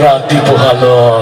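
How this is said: It is said in a menacing, frightening voice. "তোরটা তো আরো বেশি ভয়ঙ্কর শোনা গেল"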